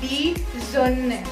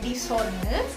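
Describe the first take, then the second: First: The second word starts with a z sound. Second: The second word starts with an s sound. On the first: The speaker calls it right. "jadi seperti Z S-nya" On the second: The speaker calls it wrong. "Jadi bukan bacanya di zone"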